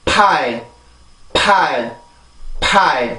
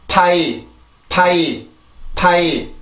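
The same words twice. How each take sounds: First: 파이 as two flat even syllables; even 파 and 이, no stress; Korean pronunciation. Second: 파이 as one stressed gliding syllable; English pronunciation. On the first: Teacher repeating the Korean 파이, two even beats. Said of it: "한국어입니다". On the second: Teacher repeating the English 파이, one stressed glide. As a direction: stress 파이 once, pah sliding into ee. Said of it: "영어입니다". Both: Shown as a demonstration.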